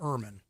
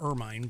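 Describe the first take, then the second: First: The word rhymes with vermin. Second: The word does not rhyme with vermin. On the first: "You're supposed to rhyme with vermin" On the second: "I would have called it the ermine, but that's just me"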